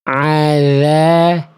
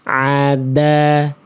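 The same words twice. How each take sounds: First: The consonant is touched lightly and flows freely. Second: The consonant is pressed hard and sounds blocked. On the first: The speaker calls it right. "ujung lidah ketemu ujung gigi sari atasnya cukup senggol tipis-tipis aja" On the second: The speaker calls it wrong. "Kalau terlalu ditekan"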